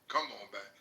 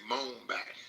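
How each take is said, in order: First: All three words are said in full. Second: The first two words blur into one syllable. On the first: "they don't say uh" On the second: "They just say"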